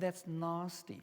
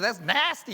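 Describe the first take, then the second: First: It is said in a South African accent. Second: It is said in an American accent.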